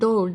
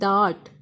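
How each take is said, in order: First: The vowel is an 'o' sound. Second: The vowel is an 'aa' sound. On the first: The speaker calls it wrong. "That is not" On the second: The speaker calls it right. "That is called"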